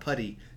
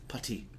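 First: The middle t is soft, like a d. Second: The middle t is crisp and fully released. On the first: "It's not putty" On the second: "he pronounces the T's"

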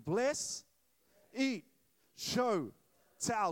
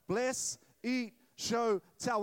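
First: The phrase is spoken at a slower pace. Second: The phrase is spoken at a faster pace. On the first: "Say this with me" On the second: "A little faster"

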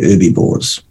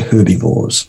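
First: The h at the start is silent. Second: The h at the start is pronounced. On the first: "Americans would say herbivores" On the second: "We would say herbivores because there's nature in front of it"

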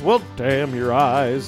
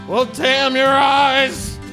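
First: It is said plainly, without desperation. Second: It is said with screechy, desperate damning.

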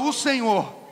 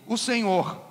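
First: It is said louder and stronger. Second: It is said at normal volume.

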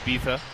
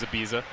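First: The middle consonant is a 'th' sound. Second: The middle consonant is a 'z' sound. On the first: This is how it is said in Spain. "In Spain, they pronounce those as a TH. ... It's like it's also Ibiza" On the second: This is how most people say it. "Everyone says Ibiza"

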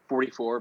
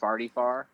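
First: The vowels sound like 'or', in general American. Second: The vowels sound like 'ar', in a St. Louis accent.

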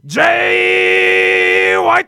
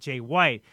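First: The name is said with dramatic announcer energy. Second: The name is said plainly and flatly.

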